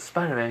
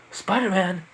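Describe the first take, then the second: First: Said in the usual way. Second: Name repeated higher as a question; mildly incredulous, pitched-up query; puzzled echo. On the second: Acted. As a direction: echo it back in disbelief. Robber repeats the name back.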